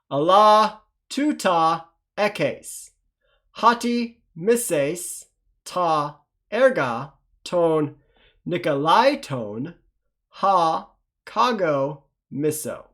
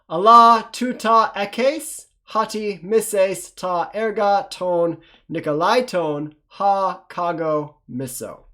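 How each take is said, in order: First: It is read slowly. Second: It is read faster.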